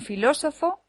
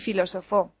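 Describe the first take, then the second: First: The stress is on the second syllable. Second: The stress is on the last syllable.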